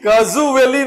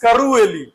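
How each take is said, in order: First: The middle consonant is a z sound. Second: The middle consonant is an r sound. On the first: The speaker calls it wrong. "कजुवेली नहीं है" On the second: The speaker calls it right. "This is करुवेली"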